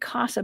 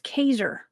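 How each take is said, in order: First: The first syllable has an 'ah' vowel. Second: The first syllable has an 'eye' vowel. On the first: The speaker calls it wrong. "I want to say Casa" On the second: The speaker calls it right. "but it's Kaiser"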